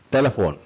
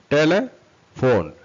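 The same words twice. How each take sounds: First: Said in the usual way. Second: Slow, raised TELE - PHONE with a gap; broken into parts. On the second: Shown as a demonstration. Teacher demonstrates the parts to learners, broken into parts. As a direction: pull telephone apart into slow pieces. Teacher splitting word into syllables.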